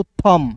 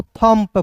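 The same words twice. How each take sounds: First: थम ending on the M; silent B. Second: थम पे as "thump", P released after M; P pronounced. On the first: Teacher contrasts thumb with thump, silent B in थम. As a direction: say थम with lips closed on M, no B. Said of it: "T H U M बी रहता". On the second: Teacher contrasts thump with thumb, P heard in थम पे. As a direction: say थम पे as one word ending in a popped P. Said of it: "यहाँ पे पी है". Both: Shown as a demonstration.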